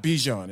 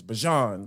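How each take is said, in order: First: Bijan said as BEE-zhon; wrong Bijan pronunciation. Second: Bijan said as buh-ZHON; announcer's Bijan pronunciation. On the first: Quoting the announcer's correction, Bijan as BEE-zhon. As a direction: say Bijan with an "ee" in the first syllable. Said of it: "It's not Bijan, it's Bijan". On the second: Announcer correcting people, Bijan as buh-ZHON. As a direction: say Bijan with a weak "uh" first syllable. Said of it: "the announcer was like". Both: Retold or imitated.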